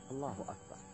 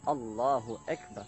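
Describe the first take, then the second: First: The vowels are pronounced as clear a sounds. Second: A vowel is pronounced like an e sound. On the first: The speaker calls it right. "Yang betul adalah Allahu Akbar" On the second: The speaker calls it wrong. "Jangan sampai kita melantunkan Allahu Akbar"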